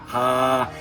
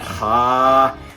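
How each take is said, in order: First: The throat sounds less tightly squeezed. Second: The throat sounds more tightly squeezed. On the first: "Close the throat off like you're gonna gargle" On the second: "When you look down, it clamps more of your throat"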